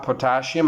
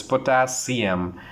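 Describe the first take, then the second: First: Potassium with sh, po-TA-shee-um; teacher shows the mistake on potassium; wrong way. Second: Potassium slow with clear s, po-TA-see-um; teacher corrects potassium slowly. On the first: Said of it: "It's not". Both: Shown as a demonstration.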